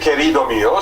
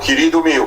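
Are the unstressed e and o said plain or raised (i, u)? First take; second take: plain; raised. First: The unstressed vowels keep their plain e and o sounds. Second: The unstressed vowels are raised to i and u sounds. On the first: This is how it is not said in that region. "no se dice" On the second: This is how that region says it, as in Portuguese. "la E non acentuada convierte en una I ... la O non acentuada convierte en una U"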